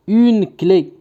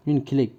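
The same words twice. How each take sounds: First: Higher, measured dictation. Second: Said in the usual way. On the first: Shown as a demonstration. Teacher giving pupils a word to write, dictation voice. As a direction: dictate it clearly to the class.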